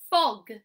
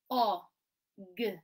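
First: FOG blended into one loud word. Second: O and g as separate phonics sounds; short O, pause, then a lone g; sounding out. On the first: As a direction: join the sounds firmly into FOG. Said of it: "blend it back together". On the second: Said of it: "we sound out the word". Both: Shown as a demonstration.

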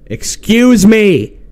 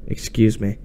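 First: Loud, high, drawn-out "Excuse"; exasperated shout. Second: Said in the usual way. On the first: Real, not acted. Player repeats a command the game ignores, exasperated shout. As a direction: stretch it out and yell in frustration.

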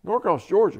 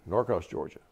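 First: Put-on loud, high echo in a Southern accent; strong Southern accent. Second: Said in the usual way. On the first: Commander repeating the lieutenant's hometown, Southern accent. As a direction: throw it back as a Southern commander. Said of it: "in a real strong Southern accent". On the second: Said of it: "I tell him".

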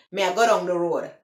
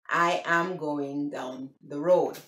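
First: Quick Jamaican patois, words run together. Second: "I am going down the road" slow, low, each word separate; slow, deliberate English "I am going down the road"; English version. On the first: Vlogger contrasting it with English, quick Jamaican patois. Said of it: "is the broken English, patois". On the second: Vlogger contrasting it with patois, English "I am going down the road". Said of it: "the English version, it would be". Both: Shown as a demonstration.

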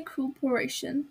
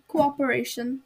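First: "cooperation" begun with a single "koo" sound; cooperation with first vowels merged. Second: "Cooperation" begun "koh-op", both vowels sounded; cooperation with separate co-op. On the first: Host thanks passengers, "cooperation" run together as "koo-peration". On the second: Speaker retries own word, "Cooperation" sounded as "koh-op-eration". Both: Shown as a demonstration.

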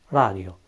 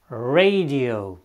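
First: Said in the usual way. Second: Radio said the English way, rolled-back R, "ray-dee-oh"; radio with an English R and a "ray" vowel. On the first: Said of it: "radio sau robot". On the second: Shown as a demonstration. Teacher modelling English radio for Romanian learners, clear English R. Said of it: "La începutul cuvintelor".

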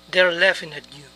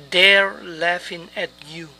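First: Said in the usual way. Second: Slow, careful enunciation for learners; slow model phrase. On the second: Shown as a demonstration. Teacher modelling an English phrase to learners, slowly. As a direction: say each word slowly and distinctly.

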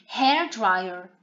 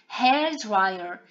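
The two takes are said the same way.

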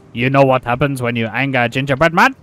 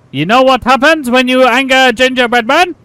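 First: Low, controlled mock threat; angry gingerbread man. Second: High, loud mock-furious threat; angry gingerbread man. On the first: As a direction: pose the threat in a lowered character voice. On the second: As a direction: build to a raised, hammed-up character shout. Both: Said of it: "Very, very angry".

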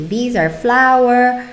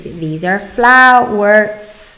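First: Said in the usual way. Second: Slow "flowers", louder, S stretched out; stress on the S. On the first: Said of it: "you want the child to say". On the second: Shown as a demonstration. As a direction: lean hard on the final S of "flowers". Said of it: "you're gonna add the S at the end".

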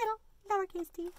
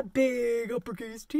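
First: Small, soft "little lowercase t"; little-letter voice. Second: Big, full, stretched BIG; big-letter voice. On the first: Teacher shows the lowercase t, small quiet voice. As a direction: shrink the voice down for the little t. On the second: Teacher shows the uppercase T, big stretched voice. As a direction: stretch out "big" and sound large for T. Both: Shown as a demonstration.

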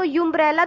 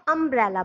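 First: "यूम्ब्रेला" wrongly begun with "yoo"; spelled-out U. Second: "अम्ब्रेला" begun with a short "uh" vowel; short A sound. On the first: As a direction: say "यूम्ब्रेला" as yoom-brella. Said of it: "तो पढ़ते नहीं". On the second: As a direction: say "अम्ब्रेला" as um-brella. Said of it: "उसको हम अम्ब्रेला पढ़ते हैं". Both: Shown as a demonstration.

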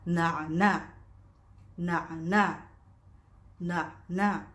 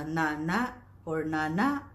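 First: "na'na" with the Arabic ayn after each "na"; correct na'na. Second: "nana" without the Arabic ayn; mispronounced nana. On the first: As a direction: catch "na'na" in the throat between and after syllables. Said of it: "the correct pronunciation of this one is". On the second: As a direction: run "nana" through with no throat consonant. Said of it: "it's wrong". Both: Shown as a demonstration.

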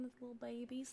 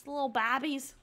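First: Said in the usual way. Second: "babbies" with a short a, as in cabbies; playful mispronunciation. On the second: Real, not acted. Player cooing about the toddlers, "babbies" with a short playful a.

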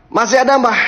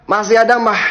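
The two takes are said the same way.

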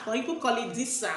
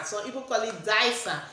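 First: Disa pronounced DEE-sah; DEE-sah pronunciation. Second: Disa pronounced DYE-sah; DYE-sah pronunciation. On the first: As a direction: say Disa with an ee in the first syllable. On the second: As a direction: say Disa with an eye sound in the first syllable. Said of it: "Whatever name you want to call it". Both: Shown as a demonstration.

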